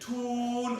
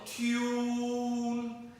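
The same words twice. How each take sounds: First: The t goes straight into the oo vowel. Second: A y-glide comes between the t and the vowel.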